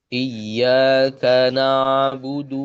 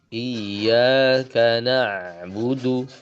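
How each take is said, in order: First: The ain trails off flat with no echo. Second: The ain sound echoes back with a rebound. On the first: The speaker calls it wrong. "Contoh keliru ya" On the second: The speaker calls it right. "Harusnya kalau dia tepat makhrajnya dia akan kembali lagi"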